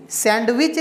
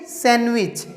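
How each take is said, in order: First: सैंडविच with the d sounded, "sand-wich"; d wrongly pronounced. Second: सैंडविच as "san-wich", no d; silent d. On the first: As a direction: voice the d in सैंडविच before the w. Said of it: "सैंडविच नहीं". (सैंडविच में ड की साफ़ आवाज़) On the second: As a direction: drop the d from सैंडविच. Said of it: "नहीं सैंडविच". (सैंडविच, ड के बिना "सैनविच") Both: Shown as a demonstration.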